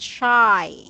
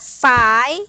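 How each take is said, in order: First: The word begins with a sh sound. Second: The word begins with a plain s sound. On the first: The speaker calls it right. "but shy" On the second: The speaker calls it wrong. "not sigh"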